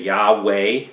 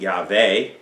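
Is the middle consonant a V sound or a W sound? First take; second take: W sound; V sound. First: The middle consonant is a W sound. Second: The middle consonant is a V sound. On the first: "most of your versions will say" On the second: "I'd pronounce it Yahweh, ... the Vav is pronounced as a V"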